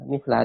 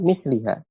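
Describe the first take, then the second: First: The vowel before the final syllable is a. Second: The vowel before the final syllable is i. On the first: The word is in the accusative case. "dia mansub sebagai tamyiz" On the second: The word is in the genitive case. "dibaca majrur"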